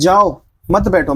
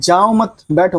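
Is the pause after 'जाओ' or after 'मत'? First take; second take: after जाओ; after मत. First: There is a pause after 'जाओ'. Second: There is a pause after 'मत'. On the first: Go away; do not sit. "मतलब कि जाओ यहां से मत बैठो" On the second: Do not go; sit down. "मतलब ना जाओ अभी बैठो"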